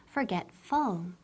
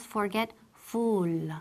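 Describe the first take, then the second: First: Forgetful said slowly, the last syllable reduced to a light "fəl"; correct pronunciation. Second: Forgetful with a full, clear "ful" ending, the wrong way; wrong pronunciation. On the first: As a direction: model Forgetful slowly, fər-GET-fəl. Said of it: "pero esa U L es como full". (Forgetful bien pronunciado, despacio y con final suave) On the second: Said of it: "Y ojo, la pronunciación, no decimos". (forgetful pronunciado mal, con "ful" pleno) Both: Shown as a demonstration.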